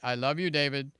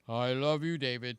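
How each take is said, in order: First: It is said in her usual lighter voice. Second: It is said in a deeper, masculine voice.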